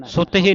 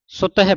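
First: ਸੁਤ ਹੀ as sute-hee; closed hee ending. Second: ਸੁਤ ਹੈ run together as suta-he; open he ending. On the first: Teacher showing students what not to read, closed hee ending. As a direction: end ਸੁਤ ਹੀ on a long ee. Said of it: "ਸੁਤ ਹੀ ਨਹੀਂ ਪੜ੍ਹਨਾ". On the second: Teacher showing students the correct reading, open he ending. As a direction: end ਸੁਤ ਹੈ on an open e sound. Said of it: "ਸੁਤ ਹੈ ਪੜ੍ਹਨਾ ਹੈ". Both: Shown as a demonstration.

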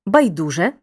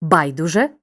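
First: "байдуже" stressed on ду; stress on second syllable. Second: "байдуже" stressed on бай; stress on first syllable. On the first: Teacher showing second accepted variant, stress on ДУ. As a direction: hit the middle, байДУже. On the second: Teacher showing first accepted variant, stress on БАЙ. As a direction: hit the start, БАЙдуже. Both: Shown as a demonstration. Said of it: "Подвійний наголос мають такі слова".

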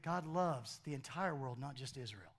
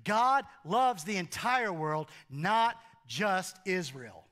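First: Dropped low and quiet, almost confiding; soft. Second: Slow, weighted stress on the entire world; preacher pressing the point home; emphatic. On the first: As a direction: say it gently under the breath. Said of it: "Nick, Nick". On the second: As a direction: lean hard on every word. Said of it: "what he is saying to Nicodemus". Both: Real, not acted.

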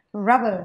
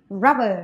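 Both takes have the same delivery.

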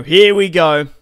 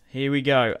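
First: Loud, hyped call; excited. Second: Said in the usual way. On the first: Real, not acted. Player announcing the next turn to viewers, loud and hyped. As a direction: kick off the turn with a shout.

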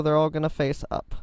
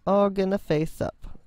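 First: Said in the usual way. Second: All lifted higher and leaned on; stress on all. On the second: Shown as a demonstration. Builder repeating the row direction, stress on all. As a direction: hit the word all.

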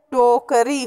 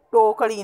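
First: टोकरी with a plain tapped "ree"; correct pronunciation. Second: टोकड़ी with a flapped hard "ṛee"; wrong pronunciation. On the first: Teacher corrects the r mistake, टोकरी with र. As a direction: use a simple r in टोकरी. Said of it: "र संबंधित अशुद्धियाँ". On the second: Teacher rejects the faulty word, टोकड़ी with ड़. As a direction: curl the tongue for ड़ in टोकड़ी. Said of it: "नहीं होता". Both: Shown as a demonstration.

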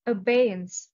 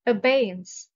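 First: Abeyance repeated, stress on BEY, falling. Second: Abeyance with stress on BEY, said loud. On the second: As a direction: announce Abeyance, leaning on BEY. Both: Shown as a demonstration. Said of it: "The stress is on the second syllable".

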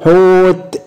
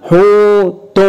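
First: حوت with a long ū, closed on a bare t; stopped with sukun. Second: حوت higher and drawn out as "ḥūū-tun"; linked-form حوت, long ū then a separate "tun"; voweled ending. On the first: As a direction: say حوت as "ḥūūt", no vowel after it. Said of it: "هنقف بالسكون". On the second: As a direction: say حوت with "tun" clearly sounded. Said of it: "مرة بالتشكيل". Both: Shown as a demonstration.

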